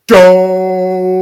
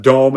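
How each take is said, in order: First: Loud, high, long-held yell; Homer Simpson. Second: Said in the usual way. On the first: Retold or imitated. Imitating the yell from the Simpsons movie, long loud yell. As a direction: bellow the word and stretch it out. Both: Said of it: "And he yelled it like this".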